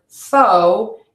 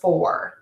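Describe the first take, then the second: First: The vowel has no R sound at the end. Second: The vowel glides into an R sound. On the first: The speaker calls it wrong. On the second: The speaker calls it right.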